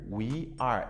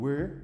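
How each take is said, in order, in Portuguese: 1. As duas palavras são pronunciadas por completo e separadamente. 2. As duas palavras são reduzidas a uma sílaba.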